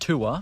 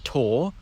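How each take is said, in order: First: The vowel splits into 'oo' then a schwa. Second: The vowel is a single sound, like 'north'. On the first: "split it into two vowels, the goose vowel and then just a schwa" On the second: "fully merge it with the sound in north and force"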